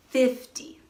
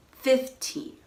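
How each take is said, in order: First: "fifty" stressed on "fif", weak "ty". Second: Put-on "fifteen" with a long, stressed "teen". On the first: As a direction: punch the first syllable of "fifty". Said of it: "stress is on the first syllable". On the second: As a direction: lean on the second syllable of "fifteen". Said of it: "the stress is on the teen". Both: Shown as a demonstration.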